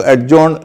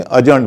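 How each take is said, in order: First: एडजॉर्न with the d sounded; wrong pronunciation. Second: अजर्न with the d silent; right pronunciation. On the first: Teacher showing viewers the mistaken form. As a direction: say एडजॉर्न with a clear d before j. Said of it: "नहीं बोलेंगे". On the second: Teacher giving viewers the correct form. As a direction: say अजर्न, no d at all. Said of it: "अजर्न बोलेंगे". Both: Shown as a demonstration.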